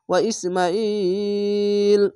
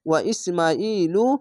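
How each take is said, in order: First: The name stops on a bare final l. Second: The name ends with a short u vowel. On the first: The reader pauses at this word. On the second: The reading continues without stopping.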